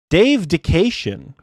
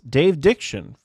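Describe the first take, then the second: First: The second name has three syllables. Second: The second name has two syllables. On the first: The speaker calls it right. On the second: The speaker calls it wrong.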